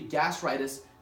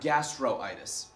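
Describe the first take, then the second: First: No 'o' vowel is heard before itis. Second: An 'o' vowel is heard before itis. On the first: The speaker calls it right. "it should be gastritis" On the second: The speaker calls it wrong. "not gastroitis"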